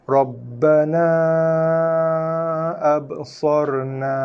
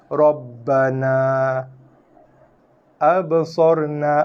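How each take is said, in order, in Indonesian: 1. Kedua kata disambung dengan vokal panjang yang ditahan. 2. Berhenti setelah Rabbana dengan vokal akhir yang pendek. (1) "Wasal, sambung, dibaca dengan empat ataupun lima" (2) "kalau kita pilih untuk waqaf lah"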